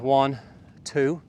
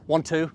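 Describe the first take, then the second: First: The count is said slowly. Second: The count is said quickly.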